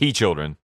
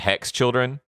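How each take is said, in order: First: The first word is said without its X sound. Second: The first word is said with its X sound.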